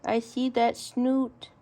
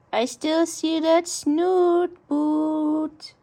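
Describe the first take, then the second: First: Said in the usual way. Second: Slow, louder sing-song tease; slow teasing. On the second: Real, not acted. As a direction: drawl it out teasing the pet. Playful taunt repeated.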